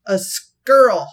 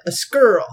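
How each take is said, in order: First: "A squirrel" drawn out slowly as "skurl"; her way of saying it. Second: "A squirrel" clipped to "skurl"; her way of saying it. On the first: Narrator imitating the lonely woman's "A squirrel", slow. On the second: Narrator repeating how the woman said "A squirrel". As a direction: say "A squirrel" as one syllable "skurl". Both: Retold or imitated. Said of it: "This is how she said it".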